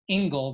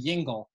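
First: The word begins with a vowel, no y sound. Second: The word begins with a y sound. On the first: This is the typical Litvak form. "Litvaks often will say ingle" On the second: This is the more polished form. "rather than yingle"

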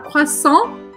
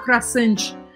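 First: The word ends on the nasal vowel, no T. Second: The word ends with an audible T sound. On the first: The speaker calls it right. "vai falar croissant e parar aqui no AN" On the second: The speaker calls it wrong. "o T no final das palavras em francês não se pronuncia, então você não vai falar croissant"

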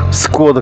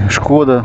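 First: The word begins with an 's' sound. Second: The word begins with an 'sh' sound. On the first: This is how it is said in Russia. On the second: This is the non-Russian way of saying it.

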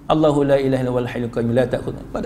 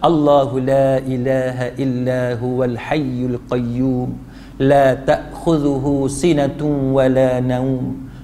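First: It is recited quickly, words run together. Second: It is recited slowly, word by word.

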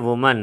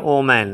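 First: The word begins with a 'woo' sound. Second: The word begins with an 'oh' sound. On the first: The speaker calls it right. "तो ये है वुमन, वो म न वुमन" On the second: The speaker calls it wrong. "बहुत सारे students इसको पढ़ते हैं ओमैन ... ये बिल्कुल गलत है"

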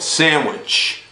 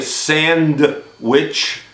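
First: The word is said with no 'd' sound. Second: The word is said with a clear 'd' sound. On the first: The speaker calls it right. "the D is quiet" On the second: The speaker calls it wrong. "We don't say sandwich"

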